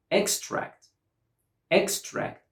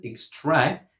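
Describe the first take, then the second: First: "extract" as EX-tract, high first syllable; first-syllable stress. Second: "extract" as ik-STRACT; second-syllable stress. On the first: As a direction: hit the EX of "extract". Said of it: "stress on the first syllable". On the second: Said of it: "we put the stress on the". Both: Shown as a demonstration.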